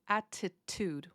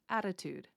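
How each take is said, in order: First: The middle T is a crisp, hard T. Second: The middle T is a soft D-like tap. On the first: The speaker calls it wrong. "I am not saying attitude, which is how it is spelled" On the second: The speaker calls it right. "I'm kind of reducing it down to a D"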